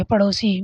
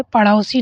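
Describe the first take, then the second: First: पड़ोसी with a plain "o"; correct vowel. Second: पड़ोसी with "au" in the middle; wrong vowel. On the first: Teacher correcting the misspelt option, correct vowel. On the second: Teacher rejecting a misspelt option, wrong vowel. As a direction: say पड़ोसी as "pa-rau-si". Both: Shown as a demonstration. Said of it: "पड़ोसी नहीं भाई".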